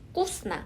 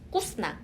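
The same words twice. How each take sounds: No difference in how they are said.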